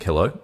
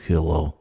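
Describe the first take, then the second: First: Said in the usual way. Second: Put-on Russian accent. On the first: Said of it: "I'm like". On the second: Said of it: "this very convincing accent".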